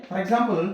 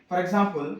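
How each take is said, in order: No difference in how they are said.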